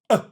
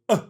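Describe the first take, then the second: First: The vowel starts with a hard glottal pop. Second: The vowel starts with a hard glottal pop.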